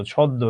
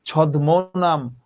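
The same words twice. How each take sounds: First: ছদ্ম as "chhoddo", d doubled and m silent; ছদ্ম with a long dd; correct doubled sound. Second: ছদ্ম নাম slowly, as "chhod-mo nam"; slow ছদ্ম with a separate mo; wrong spelling pronunciation. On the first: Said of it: "তুমি নিজেই তো জানো এটার উচ্চারণ". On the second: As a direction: sound the written m in ছদ্ম, drawn out. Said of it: "তুমি তো বলো না". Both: Shown as a demonstration.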